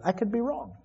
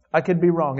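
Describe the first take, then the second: First: Much softer, higher, I could be wrong; quiet humble concession; soft admission. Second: Said in the usual way. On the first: Real, not acted. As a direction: concede gently. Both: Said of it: "I already said tonight".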